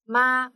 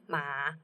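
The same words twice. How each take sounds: First: The pitch stays high and level. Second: The pitch dips down and then rises.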